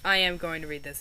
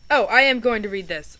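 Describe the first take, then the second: First: Said in the usual way. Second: A loud burst of excitement; excited exclamation. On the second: Real, not acted. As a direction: cry it out with delight.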